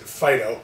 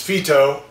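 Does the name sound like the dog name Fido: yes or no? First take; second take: yes; no. First: The name sounds like the dog name Fido. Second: The name does not sound like Fido. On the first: The speaker calls it wrong. "many people pronounce it Phyto, which drives me crazy" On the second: The speaker calls it right. "this is Phyto"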